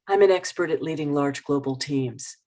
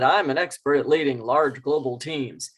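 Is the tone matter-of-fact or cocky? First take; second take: matter-of-fact; cocky. First: It is said plainly and matter-of-factly. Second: It is said in a cocky, pushy way.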